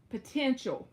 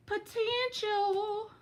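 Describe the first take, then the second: First: Said in the usual way. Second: Potential stretched slow and sung up high; drawn-out high Potential. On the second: Shown as a demonstration. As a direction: savour Potential, long and lilting. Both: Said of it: "the perfect word for my accent".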